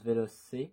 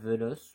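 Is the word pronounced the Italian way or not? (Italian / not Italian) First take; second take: Italian; not Italian. First: The word is said with the Italian pronunciation. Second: The word is said without the Italian pronunciation. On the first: "moi je le prononce Veloce, comme en italien ou en espagnol" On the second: "ça doit être Veloce"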